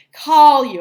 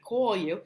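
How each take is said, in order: First: "Call" loud and high with an open ah, "cahl"; standard vowel. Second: "Call" as a New Jersey "cawl"; Jersey accent. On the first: Teacher correcting the habit, emphatic "cahl". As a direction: punch "Call" without the Jersey aw. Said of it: "pronounce things correctly". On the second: Teacher recalling years of habit, Jersey "cawl". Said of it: "It was like that for years". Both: Shown as a demonstration.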